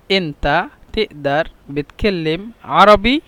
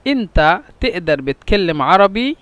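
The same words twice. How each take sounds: First: Slow, careful model of the question; slow repeat. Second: Said in the usual way. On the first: Shown as a demonstration. Teacher modelling the Egyptian question slowly for learners. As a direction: spell the question out syllable by syllable. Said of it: "repeated for learners". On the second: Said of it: "repeats the phrase slowly".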